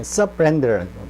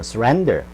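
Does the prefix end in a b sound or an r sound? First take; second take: b sound; r sound. First: The prefix keeps a b sound before r. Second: The prefix blends into the r sound. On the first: The speaker calls it wrong. "어렵죠" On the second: The speaker calls it right. "훨씬 더 편하죠"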